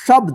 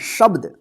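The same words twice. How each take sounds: First: The consonants are joined without a vowel between. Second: The consonants are split by an added vowel. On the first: The speaker calls it right. "इसको क्या पढ़ेंगे शब्द" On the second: The speaker calls it wrong. "इसको शब्द मत पढ़िएगा"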